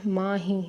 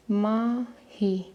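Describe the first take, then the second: First: Said in the usual way. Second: माही stretched very slowly, each syllable held; drawn-out माही. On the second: Shown as a demonstration. Teacher to pupils spelling names, saying माही very slowly.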